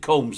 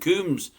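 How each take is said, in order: First: The vowel is an 'oh' sound. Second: The vowel is a long 'oo' sound. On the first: The speaker calls it right. "Am I supposed to pronounce it Combs? ... There's no double O" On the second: The speaker calls it wrong. "I keep calling him Coombs"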